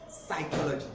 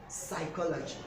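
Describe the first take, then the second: No difference in how they are said.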